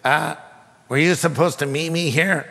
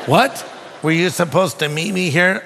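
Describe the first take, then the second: First: Imitating a hesitant voice from next door; stranger's tentative question. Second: Retold incredulous repeat, rising at the end; baffled echo. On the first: Preacher voices the man in the next stall, tentatively. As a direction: ask it cautiously, with a pause. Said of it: "I hear this voice say". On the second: Preacher recalls echoing the stranger's question, baffled. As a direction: throw the question back in disbelief.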